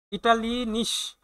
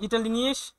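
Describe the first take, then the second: First: ইটালিনিস drawn out slowly, every syllable spelled out; slow careful German. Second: Said in the usual way. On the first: Shown as a demonstration. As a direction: stretch out ইটালিনিস for learners. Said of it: "teacher repeats German word slowly". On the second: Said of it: "teacher reads German word".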